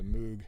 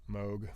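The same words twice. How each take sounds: First: Moog said as "moog", with an oo; long OO in Moog; oo pronunciation. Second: Moog said as "mohg"; long O in Moog; long-o pronunciation. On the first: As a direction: say Moog with the vowel of food. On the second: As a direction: say Moog to rhyme with vogue. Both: Shown as a demonstration. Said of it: "however you say it".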